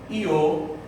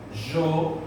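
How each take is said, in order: First: The word starts with an ee-like glide. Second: The word starts with a soft zh sound. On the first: "com o som de I" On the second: "com o som de J"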